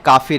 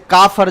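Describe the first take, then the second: First: The second syllable has an 'i' vowel. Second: The second syllable has an 'a' vowel. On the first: This is the original form by the rule. "जो असल में काफिर है, इसमें फाइल कसेगा" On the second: This is the form commonly used by people. "इसी तरीके से काफर"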